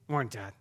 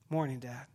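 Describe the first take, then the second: First: It is said with a sulky attitude. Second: It is said in a plain, friendly way.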